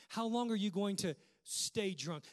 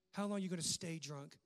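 First: Said in the usual way. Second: A mild hint of judging scorn; understated accusing question; judgmental tone. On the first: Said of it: "Look at that statement". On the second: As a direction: read it as the judging priest, lightly. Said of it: "Listen to the judgment in the tone".

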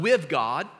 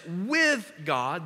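First: With leaned on, rising; stress on with. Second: With lifted, rising; stress on with. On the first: Pastor marking the key word for the church, stressed. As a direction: press the word with. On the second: Pastor pointing the church to with, stressed. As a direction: press on with. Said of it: "underline this". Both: Shown as a demonstration.

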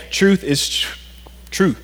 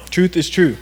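First: Choked up. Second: Said in the usual way. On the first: Real, not acted. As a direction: catch mid-word, then finish TRUE. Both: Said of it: "just choked up".

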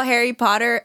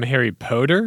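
First: Said in the usual way. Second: "Potter" said with a long O, like "Poter"; altered pronunciation. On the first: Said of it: "Do you also call". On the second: Acted. Friend mocking the long-O habit, "Potter" as POH-ter. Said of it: "Do you call him".

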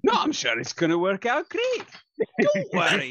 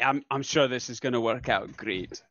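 First: High-pitched, hammed-up assurance; exaggerated reassurance. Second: Understated, not quite convincing assurance; dubious reassurance. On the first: Repeating it on request to prove certainty, overdone reassurance. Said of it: "Say it one more time exactly that way". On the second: Acted. Assuring friends it will work out, understated dubious reassurance. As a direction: reassure in an everyday pitch, barely convincing. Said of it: "exactly that way".

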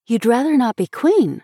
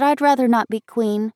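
First: Higher, incredulous echo; astonished. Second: Put-on higher girl's voice, mildly faltering. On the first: Schoolmate hearing the girl's decision, astonished. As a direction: repeat it back in astonishment. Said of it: "repeated Marion in astonishment". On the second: Little girl giving up her role, mildly faltering. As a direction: own up with slight hesitation. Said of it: "faltered the little girl". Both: A narrator's reading.

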